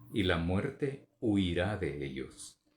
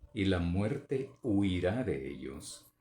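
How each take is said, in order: The two takes are said the same way.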